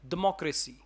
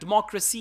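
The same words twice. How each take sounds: First: It is said with an Arabic accent. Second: It is said with standard English pronunciation. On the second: "is the right one"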